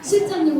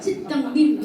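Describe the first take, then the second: First: The word is said plainly, with normal consonants. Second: The word is said cutely, with softened nasal sounds.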